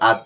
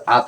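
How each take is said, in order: First: "আত" with a bouncing echo on the final consonant; qalqala. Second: "আত" with no echoing bounce; without qalqala. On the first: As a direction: bounce off the end of "আত". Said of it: "এই পাঁচ হরফ জজম হলে কলকলা". ("আত" শেষে ধাক্কা দিয়ে কলকলা) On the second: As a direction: say "আত" stopped, without bouncing the final consonant. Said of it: "এখানে কিন্তু আত হইতো না". ("আত" শেষে কলকলা ছাড়া) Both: Shown as a demonstration.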